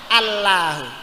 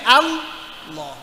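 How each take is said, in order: First: The word ends with a plain u vowel. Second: The word ends on a final h sound. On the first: "luwih mending napa? Allahu. Karena tidak mengganti huruf" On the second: "sing paling bener kudune Allah"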